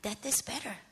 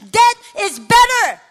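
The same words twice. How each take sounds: First: Very soft, low, as a dark thought; quiet inner thought. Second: High, very loud acted outburst; desperate shout. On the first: Retold or imitated. Daughter at her mother's bedside thinking to herself, hushed. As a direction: let the thought slip out softly. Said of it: "this thought comes to my mind". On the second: Worn-out daughter crying to God over her mother, shouting.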